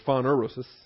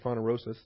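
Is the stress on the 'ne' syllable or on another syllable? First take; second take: 'ne' syllable; another syllable. First: The stress is on the 'ne' syllable. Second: The stress is not on the 'ne' syllable.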